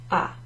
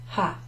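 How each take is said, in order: First: The word begins directly with the vowel. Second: The word begins with an audible h sound. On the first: The speaker calls it right. "It's as if the H isn't there" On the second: The speaker calls it wrong. "You don't say ho, hai, ha"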